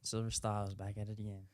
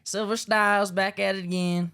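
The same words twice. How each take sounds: First: It is said in a plain accent. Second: It is said in a country accent.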